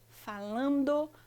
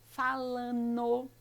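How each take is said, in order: First: The ending is said with a clear d sound. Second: The ending is said without the d sound. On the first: This is the proper form for formal use. "a forma adequada, que é o N D O" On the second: This is how people say it in everyday speech. "no dia a dia, na nossa fala, a gente costuma dizer assim"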